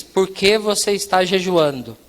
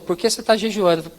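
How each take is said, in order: First: "Por que você está jejuando" said slowly, every word complete; measured, patient questioning on "Por que você está jejuando"; deliberate repeated question. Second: Said in the usual way. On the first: Retold or imitated. Perguntou pela terceira vez.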